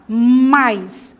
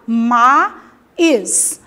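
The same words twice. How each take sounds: First: The vowels are joined in one syllable. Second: The vowels are split into two syllables. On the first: The speaker calls it right. "as vogais ficam juntas numa mesma sílaba" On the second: The speaker calls it wrong. "Eu não falo mais"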